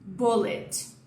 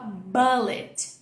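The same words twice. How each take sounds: First: The first vowel is short and rounded. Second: The first vowel is open, like 'a'. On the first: The speaker calls it right. "esse som aqui é um O... Olha a diferença da minha boca, redondinha" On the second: The speaker calls it wrong. "Muita gente fala bullet"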